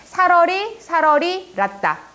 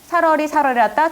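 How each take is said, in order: First: The line is broken up into four even metrical beats. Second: The line is broken up following the written word spacing. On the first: The speaker calls it right. "이렇게 사문보예요" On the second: The speaker calls it wrong. "이런 식으로 끊어져 있으니까 띄어쓰기가 그렇게 되어 있으니까 사문보라고 착각을 하는데 이거 사문보 아니에요"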